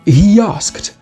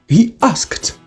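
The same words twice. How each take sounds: First: A y sound comes between the words. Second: No extra sound comes between the words.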